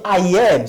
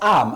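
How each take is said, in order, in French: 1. Ça se dit en deux mots pleins. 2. Ça se dit en une seule syllabe contractée. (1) "Lorsqu'il y a A, on dit I am" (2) "avec la forme contractée"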